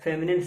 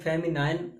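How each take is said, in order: First: The last syllable sounds like 'nin'. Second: The last syllable sounds like 'nine'. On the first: The speaker calls it right. "फेमिनिन सही है" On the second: The speaker calls it wrong. "फेमिनाइन भी यहाँ पर गलत होता है"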